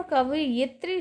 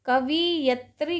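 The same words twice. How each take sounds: First: कवयित्री said as "kava-yitri"; correct pronunciation. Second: कवियत्री said as "kavi-yatri"; wrong pronunciation. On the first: Teacher giving students the right form, कवयित्री as "kava-yitri". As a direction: put the i after the y in कवयित्री. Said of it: "शब्द सही है". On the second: Teacher showing students the error, कवियत्री as "kavi-yatri". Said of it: "गलत है". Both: Shown as a demonstration.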